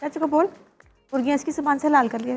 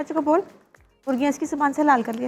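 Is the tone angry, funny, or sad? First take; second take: funny; funny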